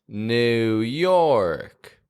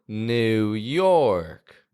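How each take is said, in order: The two takes are said the same way.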